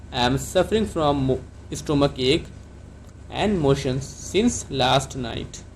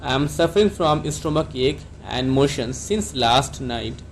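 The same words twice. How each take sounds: First: Broken into chunks. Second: Slow whole sentence. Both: Shown as a demonstration. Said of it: "आप doctor को कैसे बोलेंगे?".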